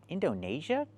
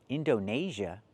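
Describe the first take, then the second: No difference in how they are said.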